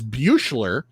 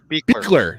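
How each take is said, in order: First: The name is said close to its spelling. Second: The name is said with the first syllable 'bick'. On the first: The speaker calls it wrong. "what I would pronounce as Buechler" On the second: The speaker calls it right. "is Bickler"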